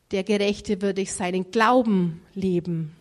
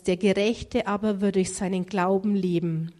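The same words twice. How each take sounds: First: "Glauben" punched, slight break before "leben"; stress on Glauben. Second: "Gerechte" given the main weight in the verse; stress on Gerechte. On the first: Preacher shows the emphasis in Galatians, stress on "Glauben". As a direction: hit "Glauben" hardest, not "Gerechte". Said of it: "Hier liegt nicht die Betonung auf dem Gerechten, sondern". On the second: Preacher quotes the verse from Romans, stress on "Gerechte". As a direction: lean on "Gerechte", the rest falling away. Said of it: "Hier liegt die Betonung auf, ja, der Gerechte". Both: Shown as a demonstration.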